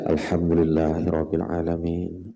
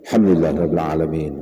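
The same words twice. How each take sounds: First: It is recited softly, following the breath. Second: It is recited loudly, easily overheard. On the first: Others nearby are not disturbed. The speaker calls it right. "dibaca sambil bertarap seolah diiringan lawan nafas" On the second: A third person nearby is disturbed. The speaker calls it wrong. "itu nyaring"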